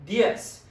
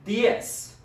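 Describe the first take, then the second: First: The word ends with a hissing s sound. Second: The word ends with a hissing s sound.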